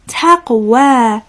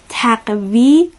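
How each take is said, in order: First: The word ends with a long 'a' vowel. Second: The word ends with an 'i' vowel. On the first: The speaker calls it right. "باید بگیم تقوا" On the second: The speaker calls it wrong. "اشتباهاً تقوی خوانده نشه"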